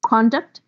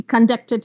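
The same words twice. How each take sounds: First: "Conduct" as a noun, CON stressed; CON-duct, weight on the start of "Conduct"; stress on first syllable. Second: "conducted" as a verb, DUCT stressed; con-DUCT-ed, weight on the middle of "conducted"; stress on second syllable. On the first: Teacher giving noun examples, first-syllable stress. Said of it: "If the stress is on the first syllable". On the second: Teacher shifting stress to make a verb, second-syllable stress. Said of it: "Now just shift the syllable". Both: Shown as a demonstration.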